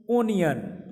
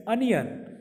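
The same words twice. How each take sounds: First: ओनियन said as "oh-nee-un", long O at the start; the common Indian ओनियन with a rounded O; wrong onion. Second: अनियन said as "uh-nee-un", short neutral first vowel; अनियन with an open short "uh" instead of O; correct onion. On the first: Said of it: "ओनियन नहीं". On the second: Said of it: "क्या होता है guys". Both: Shown as a demonstration.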